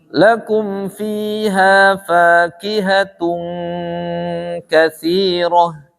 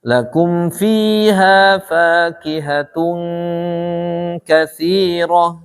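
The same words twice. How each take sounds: The two takes are said the same way.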